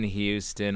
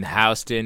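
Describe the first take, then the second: First: Houston with the first syllable like "hue"; Houston said HYOO-stən. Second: Houston with the first syllable like "house"; Houston said HOW-stən. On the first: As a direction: say Houston as HEW-stən, like the Texas city. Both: Shown as a demonstration. Contrasts two pronunciations of Houston.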